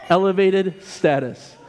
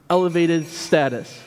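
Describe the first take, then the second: First: "Elevated status" slowed and stressed on "Elevated"; repeated for emphasis. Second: Said in the usual way. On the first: Shown as a demonstration. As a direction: lean on "Elevated", slowly, to land it.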